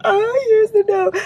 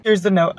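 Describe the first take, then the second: First: Much higher, slow excited squeal. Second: Said in the usual way. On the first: Real, not acted. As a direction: squeal it out with delight. Finds a note in a package.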